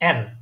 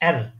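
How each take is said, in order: First: The letter name is said from the throat. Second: The letter name is said from the throat.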